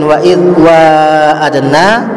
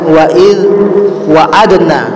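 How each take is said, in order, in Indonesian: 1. Huruf vokal pertama pada wa'adna panjang. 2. Huruf vokal pertama pada wa'adna pendek. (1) "dengan adanya alif" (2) "tidak menggunakan a, alif"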